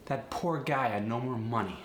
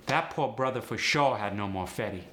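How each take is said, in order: First: Said in the usual way. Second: AAVE, "poor" and "more" without R; relaxed AAVE delivery; AAVE sentence. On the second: Shown as a demonstration. Teacher demoing R-less sentence. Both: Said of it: "Let's try a sentence".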